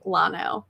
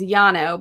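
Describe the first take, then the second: First: The word begins with an L sound. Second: The word begins with a Y sound. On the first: This is how the locals say it. "but the locals say Lano" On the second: This is the Spanish pronunciation. "the proper pronunciation is Yano"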